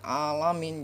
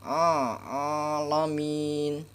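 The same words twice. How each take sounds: First: "alamin" with a plain alif instead of ain; wrong alamin. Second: Slow "alamin" starting with a throat ain; correct ain in alamin. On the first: Teacher showing the mistake to avoid. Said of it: "Jangan dibaca alamin kayak gini". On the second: Teacher modelling the correct reading, slowly. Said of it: "jangan dibaca alamin". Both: Shown as a demonstration.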